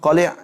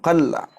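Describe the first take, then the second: First: The L is followed by the vowel i. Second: The L is followed by no vowel.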